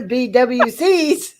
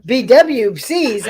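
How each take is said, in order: First: "B W Cs" slow and drawn out; each letter of "B W Cs" given its own beat; spelled out slowly. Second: "B W Cs" letter by letter, slowly; spelled out slowly. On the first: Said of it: "I'm like the B". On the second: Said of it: "Sorry, I'm not into B B Bs". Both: Shown as a demonstration.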